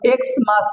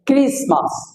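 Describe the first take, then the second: First: It begins with the letter name X. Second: It begins with a kris sound. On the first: The speaker calls it wrong. "এক্স মাস নয়" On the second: The speaker calls it right.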